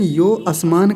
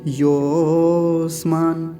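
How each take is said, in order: First: A separate full vowel begins the second word. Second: The second word merges into the first vowel. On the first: The speaker calls it wrong. "कुछ लोग क्या कहते हैं, यो आसमान कह देते हैं" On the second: The speaker calls it right. "ऐसे इसी के साथ मिलाना है इसको"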